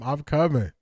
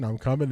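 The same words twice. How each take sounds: First: It is said in an imitated voice. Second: It is said in a natural voice.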